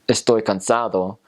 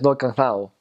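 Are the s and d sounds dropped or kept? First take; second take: kept; dropped. First: Every s and d sound is clearly pronounced. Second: The s and d sounds are dropped, almost mumbled. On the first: "instead of saying" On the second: "They drop their S's a lot of the time, and their D's"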